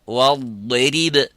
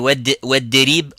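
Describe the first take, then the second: First: The first consonant is a heavy emphatic d. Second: The first consonant is a light plain d. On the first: The speaker calls it right. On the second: The speaker calls it wrong.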